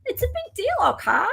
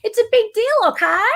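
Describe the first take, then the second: First: Very high, swooping mock protest. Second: High, loud mock protest; high and emphatic, playing it up; mock exclamation. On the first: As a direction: pitch it way up, then drop on okay. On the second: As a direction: exclaim it big and high-pitched. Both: Repeats line in mock voice.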